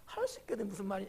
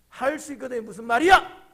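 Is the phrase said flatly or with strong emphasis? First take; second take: flatly; strong emphasis. First: It is said flatly, without strong emphasis. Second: It is said with strong, pointed emphasis.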